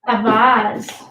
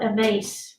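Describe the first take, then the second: First: Vase is said with a non-American pronunciation. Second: Vase is said with an American pronunciation.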